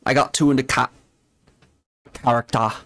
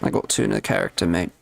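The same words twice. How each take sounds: First: Imitated Aussie accent, broken off and resumed; demonstrating an Australian accent. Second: Lower, imitated British accent; low-key British accent demo. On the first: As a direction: say it as Australians would. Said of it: "that's how the Australians would say it". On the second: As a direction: say it as the British would. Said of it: "And the British will say".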